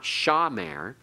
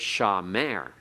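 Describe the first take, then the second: First: The stress is on the first syllable. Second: The stress is on the last syllable. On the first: The speaker calls it wrong. "It's not accented on the first. It's not shamer" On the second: The speaker calls it right. "we accent on the last syllable"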